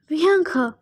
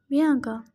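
First: Mildly raised exclamation of her name; urgent call. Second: Subdued, guilt-heavy utterance of the name; thick-voiced. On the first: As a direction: call out to your lost sister. Brother calls to dead sister. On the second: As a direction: say her name with a lump in your throat. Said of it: "My voice was thick". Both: A narrator's reading.

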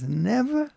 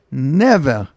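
First: "Never?" pitched much higher and rising, half-voiced in disbelief; emphatic never. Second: A firm, falling "Never." said with finality; emphatic refusal. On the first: Rabbi echoing the woman's refusal in disbelief, emphatic. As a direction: echo her word back in disbelief. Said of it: "in such an emphatic way". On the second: Retold or imitated. Older woman from Monsey refusing to move, emphatic. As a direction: shut the door with "Never.".

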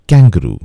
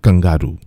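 First: "Kangaroo" said kang-guh-ROO; "Kangaroo" with a clear kang at the start; careful "Kangaroo", kang-ga-roo; correct pronunciation. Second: "kangaroo" said k-ung-GAH-roo; "kangaroo" with a flat gah in the middle; mispronounced "kangaroo", kung-gah-roo; wrong pronunciation. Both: Shown as a demonstration.

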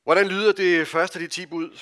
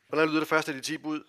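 First: Loud question. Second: Quicker repeat. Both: Shown as a demonstration. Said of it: "Hallo, voksne".

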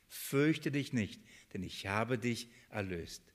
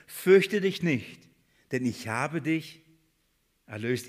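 First: Slow and much softer; soft repetition. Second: Emphatic proclamation. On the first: Preacher repeating the beloved verse softly to himself. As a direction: murmur it back as if savouring it. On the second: Preacher to the congregation, reading the verse slowly and emphatically. Preacher reads God's promise aloud. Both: Shown as a demonstration.

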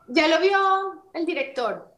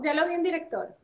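First: High, slow imitation of the producer; imitated producer. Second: High, softer imitation of the producer; imitated producer. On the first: Producer telling the actress the director saw it, imitated high and slow. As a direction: draw it out high, mimicking the producer. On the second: Producer reporting back to the actress, imitated high and lighter. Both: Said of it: "pero así, ¿no?".

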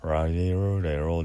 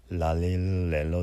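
First: "ラリルレロ" with curled R, louder and connected; 巻き舌のR. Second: "ラリルレロ" as L, tongue pressed to the palate; connected "ラリルレロ" with clear L sounds; 舌をつけたL. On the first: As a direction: run "ラリルレロ" together with the tongue curled back. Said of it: "一応ラ行はRで". (「ラリルレロ」を強めに巻き舌のRで) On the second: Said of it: "そのつけた状態で". (「ラリルレロ」を舌を上顎につけたLで) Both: Shown as a demonstration.

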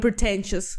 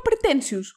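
First: "pretentious" with an English accent. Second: Greek accent. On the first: Defending herself to co-host, "pretentious" in an English accent. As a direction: say "pretentious" as an English speaker would. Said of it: "δεν έκατσα να πω το βρίσκω". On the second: Correcting co-host, "pretentious" in a Greek accent. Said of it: "Είπα pretentious". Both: Shown as a demonstration.

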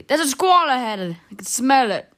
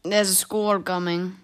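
First: Put-on loud, insistent old man; cross, raised-voice warning; angry. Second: Slow, mildly plaintive warning; understated slow lament. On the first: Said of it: "The old man said angrily". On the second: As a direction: draw it out as a mild complaint. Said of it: "said plaintively". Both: A narrator's reading.

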